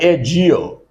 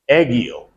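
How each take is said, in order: First: The g is soft, as in gem. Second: The g is hard, as in go. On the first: The speaker calls it wrong. "Not agio. G stands for not G in fact" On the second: The speaker calls it right. "The pronunciation is agio"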